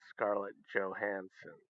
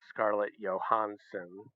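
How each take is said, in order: First: The surname is said in an American way. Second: The surname is said in a foreign-sounding way. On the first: This is how Americans should say it. The speaker calls it right. "it's Scarlett Johansson because we're Americans" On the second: This is how a friend says it. The speaker calls it wrong. "my friend who always says Scarlett Johansson"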